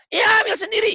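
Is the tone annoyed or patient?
annoyed. The reply sounds annoyed and irritated.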